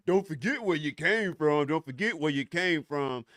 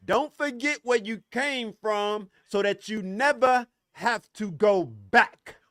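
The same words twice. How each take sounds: First: Lightly mocking recital of a saying; rote, repeated saying, lightly mimicked; quoting a cliché. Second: Slow, deliberate, punching out "never" and "go back"; slow emphatic delivery, dragging out "have to go back"; emphatic correction. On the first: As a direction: parrot it like a tired slogan. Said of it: "these motherfuckers who go around talking". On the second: Shown as a demonstration. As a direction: spell it out slowly for them. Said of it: "Let me finish that statement for you".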